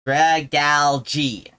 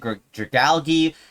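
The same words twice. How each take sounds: First: The ending sounds like the word 'algae'. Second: The ending does not sound like 'algae'. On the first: The speaker calls it right. "Like algae" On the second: The speaker calls it wrong. "one person on the internet who pronounces it Dragalge"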